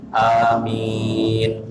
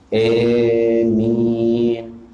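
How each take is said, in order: First: The first a is short with a single m. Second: The first vowel is shifted toward e. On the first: This is common but less so than the first. "dengan memendekkan huruf hamzah, jadi tidak dibaca panjang" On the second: This is a rare, unusual reading. "Jadi a dibacanya dengan e"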